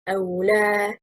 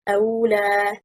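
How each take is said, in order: First: The stress falls on the second syllable. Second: The stress falls on the first syllable. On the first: It is two words meaning or do not. The speaker calls it right. "The stress is on حركة lam" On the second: It becomes one word with a changed meaning. The speaker calls it wrong. "If we stress on حركة الهمزة and we say"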